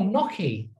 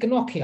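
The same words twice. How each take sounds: First: The G at the start is silent. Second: The G at the start is pronounced. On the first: The speaker calls it right. "why the fuck would you put a G in front of it if it's not pronounced like that?" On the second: The speaker calls it wrong. "I was saying this wrong for ages"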